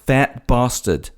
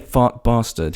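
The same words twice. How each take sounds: First: 'Fat' is said with a non-British vowel. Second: 'Fat' is said with a British vowel. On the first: "He says Fat Bastard. ... why are you saying fat that way?" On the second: "he has a British accent. ... he doesn't say Fat Bastard"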